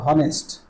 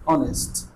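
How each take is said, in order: First: The word begins with an h sound. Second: The word begins with a vowel sound. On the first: The speaker calls it wrong. "হনেস্ট হবে না।" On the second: The speaker calls it right. "অ sound"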